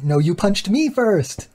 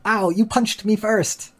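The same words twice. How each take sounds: First: Put-on high, slow childish comeback 'No, you punched me first' leaning on 'me'; whiny child retort. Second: High, slow whiny 'Ow, you punched me first' with the stress on 'you'; whiny child quarrel. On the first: The other kid whines back that it was him, high and slow. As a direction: throw the blame right back like a sulky kid. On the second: Retold or imitated. One kid whines to another that he hit first, high and slow. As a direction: play the hurt kid who blames the other.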